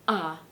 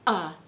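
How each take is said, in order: First: It starts with a light glottal catch. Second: The same.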